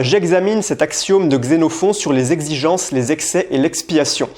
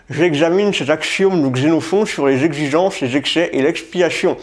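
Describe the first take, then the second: First: Slow, careful articulation of J'examine cet axiome de Xénophon; every syllable of Xénophon spelled out slowly; careful tongue twister. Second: J'examine cet axiome mushed around a pen held in teeth; slurred consonants, slow, through a pen. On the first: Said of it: "je vais t'en faire quelques-unes". (articulation lente et appliquée de J'examine cet axiome) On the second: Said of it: "le stylo dans la bouche, hein, du style comme ça". (J'examine cet axiome dit avec un stylo entre les dents) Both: Shown as a demonstration.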